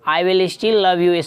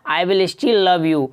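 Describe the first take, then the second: Both takes have the same delivery.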